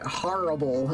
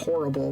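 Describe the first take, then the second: First: It is said in a Massachusetts-style accent. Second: It is said in a New York-style accent. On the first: This is how the listener says it. "you say horrible" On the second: This is how the speaker's own region says it. "instead of horrible"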